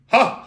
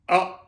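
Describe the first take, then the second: First: The vowel starts with an audible puff of breath. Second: The vowel starts cleanly without an audible breath. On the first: "Aspirate uses a lot of air" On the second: "the balanced, means that you initiate the breath just before the tone"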